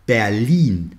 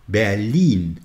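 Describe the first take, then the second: The two takes are said the same way.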